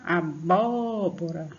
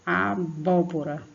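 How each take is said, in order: First: "abóbora" very slow, with a long drawn-out "bó"; teacher exaggerating the strong second syllable of "abóbora"; exaggerated stress on BÓ. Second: "Abóbora" said slowly with stress on the "bó"; measured "Abóbora", strong open "bó". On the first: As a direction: stretch and push the "bó" of "abóbora". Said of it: "você puxa bastante aqui na garganta". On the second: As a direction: lean on the second syllable of "Abóbora". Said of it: "puxa bastante aqui na garganta". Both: Shown as a demonstration.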